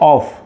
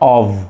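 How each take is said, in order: First: The word ends with an f sound. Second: The word ends with a v sound. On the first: The speaker calls it wrong. "আমরা শিখে এসেছি অফ" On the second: The speaker calls it right. "এটার শুদ্ধ উচ্চারণটা হবে অভ"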